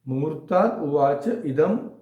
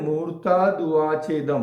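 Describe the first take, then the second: First: Uvacha and idam are said as separate words. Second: Uvacha and idam merge into one word. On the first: "इसको संधि तोड़ लें" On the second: "तो ये एक word है"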